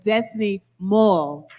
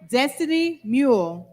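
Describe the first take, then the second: First: The surname has a short 'uh' vowel. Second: The surname has a long 'oo' vowel. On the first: The speaker calls it right. "I'd like to pronounce that correctly" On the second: The speaker calls it wrong. "Excuse me, and I'd like to pronounce that correctly"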